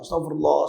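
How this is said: It is said earnestly, with focus.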